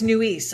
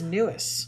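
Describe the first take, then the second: First: Nuis said as "noo-EES"; suggested name pronunciation. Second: Newis rhyming with Lewis; alternative name pronunciation. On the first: Co-host guessing at a viewer's surname, Nuis as "noo-EES". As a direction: say Nuis with a long "ee" ending. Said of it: "almost like Lewis". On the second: Co-host trying another reading of a surname, Newis like Lewis. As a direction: say Newis as "NEW-iss", short ending. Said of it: "almost like Lewis. Maybe it's". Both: Shown as a demonstration.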